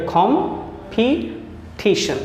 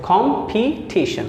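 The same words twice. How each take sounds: First: कॉम्पिटिशन split slowly into three syllables, kom-pi-tishan; broken into syllables. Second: कॉम्पिटिशन said whole as one smooth word; joined pronunciation. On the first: Teacher splitting a word into syllables for students, slow and syllable by syllable. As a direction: sound out कॉम्पिटिशन piece by piece, very slow. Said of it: "आपने तीन part में किया". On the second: Teacher joining the syllables back together for students, smooth whole word. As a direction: blend कॉम्पिटिशन into one word after the split. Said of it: "और फिर उसे pronounce किया".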